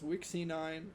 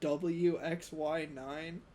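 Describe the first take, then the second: First: The first part is said as one word. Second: The first part is spelled out letter by letter. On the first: The speaker calls it right. "I told him no, it's Wixie nine" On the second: The speaker calls it wrong. "he tried telling me his name is pronounced W X Y nine"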